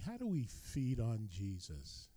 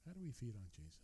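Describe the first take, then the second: First: Said in the usual way. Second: "How do we feed on Jesus?" repeated much softer, almost to himself; quiet repeat. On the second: Shown as a demonstration. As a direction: let the repeated question drop to a hush.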